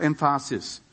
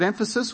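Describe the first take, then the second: First: EmPHAsis, stress moved to the middle syllable; jokingly misplace the stress in emphasis: em-FA-sis; stress on later syllable. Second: EMphasis, stressed on the opening syllable; stress on first syllable. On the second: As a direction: say emphasis the standard way, EM-fuh-sis. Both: Shown as a demonstration. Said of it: "where you put the emphasis on the syllable".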